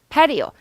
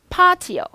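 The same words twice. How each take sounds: First: It is said with an American pronunciation. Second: It is said with a British pronunciation. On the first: "미국은 patio" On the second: "영국식"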